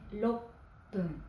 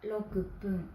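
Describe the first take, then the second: First: The middle has a doubled, held 'p'. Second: The middle has a full 'ku' syllable. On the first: The speaker calls it right. "mais roppun" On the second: The speaker calls it wrong. "On ne dit pas rokupun"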